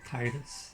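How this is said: The name is said in a Scottish way. "I've always said Titus, ... because I guess I'm Scottish"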